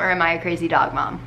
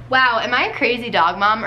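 First: Lower, fast and matter-of-fact; deadpan. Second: Excited. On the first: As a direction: answer yourself dryly. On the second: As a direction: ask it brightly, all worked up. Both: Shown as a demonstration.

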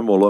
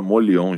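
First: Molon in two syllables, "Mo-lon"; mistaken name Molon. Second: Molion with an i-glide, "Mo-li-on"; corrected name Molion. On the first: Host correcting a surname, Molon said as "Mo-lon". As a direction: say Molon without an i-glide. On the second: Host correcting a surname, Molion said as "Mo-li-on". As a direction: say Molion with "li" before the nasal ending. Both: Shown as a demonstration. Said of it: "uma segunda correção aqui".

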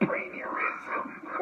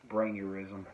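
First: Slow breathy whisper through a laugh; whispered laughing repeat. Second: Said in the usual way. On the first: Shown as a demonstration. Repeating his made-up word to a friend, slow laughing whisper. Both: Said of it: "I called it a brainurism".

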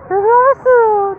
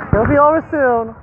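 First: Soothing to a pet. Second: Said in the usual way. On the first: Real, not acted. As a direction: coo it like calming a puppy. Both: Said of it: "comforting the scared dog".

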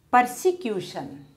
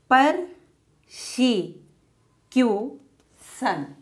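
First: Said in the usual way. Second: Persecution very slowly as per-se-cu-tion; long pause after each beat of Persecution; syllable by syllable. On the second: Shown as a demonstration. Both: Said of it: "how to divide words".

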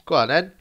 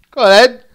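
First: Said in the usual way. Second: Higher, louder call; urgent shout. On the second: Real, not acted. Gamer yelling his player on. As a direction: push him on.

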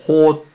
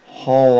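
First: ほ with open Korean eo, high and loud. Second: ほ with rounded Korean o, drawn out and loud. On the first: Teacher contrasts two sounds for learners, ほ with open eo. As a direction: say ほ loudly with lips loose and open. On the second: Teacher contrasts two sounds for learners, ほ with rounded o. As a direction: say ほ slowly and loudly with rounded lips. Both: Shown as a demonstration. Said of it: "ほは違いますよ".

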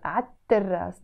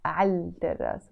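First: عالتراس said 'at-terras, no L; double T. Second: عالتراس said 'al-terras with a clear L, softer and lower; L sounded. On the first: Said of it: "double T". (replace the L of عالتراس with a second T) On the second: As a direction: pronounce the L before the T in عالتراس. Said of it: "So we don't say". (keep the L audible in عالتراس) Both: Shown as a demonstration.

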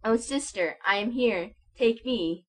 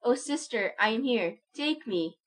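First: A raised, higher plea; a child's eager cry, raised and higher. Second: A higher, stronger plea; a child's cry, higher and more urgent. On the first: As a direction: call out to his sister with longing. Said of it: "and cried". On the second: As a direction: reach for her with the whole voice. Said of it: "he cried". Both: A narrator's reading.

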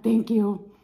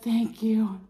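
First: Eager, louder thank you. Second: Breathy grateful whisper; whispered thanks. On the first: Thanking the server, eager and loud. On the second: Thanking the server, whispered. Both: Retold or imitated. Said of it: "I'm like".

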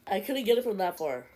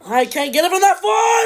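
First: Said in the usual way. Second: High, loud yell at the game; frustrated shout. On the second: Real, not acted. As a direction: yell it out in disbelief.

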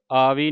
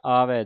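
First: ਆਵੀ said wrongly ending in i, "aavi"; wrong pronunciation. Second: ਆਵੈ ending on an open ai, "aavai"; correct pronunciation. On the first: Teacher warning the sangat against the wrong "aavi". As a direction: end ਆਵੀ on a thin i. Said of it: "ਆਵੀ ਨਹੀਂ ਕਹਿ ਦੇਣਾ". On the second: Teacher modelling ਆਵੈ with dulavan for the sangat. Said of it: "ਦਲਾਵਾਂ ਦੇ ਨਾਲ ਆਵੈ". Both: Shown as a demonstration.

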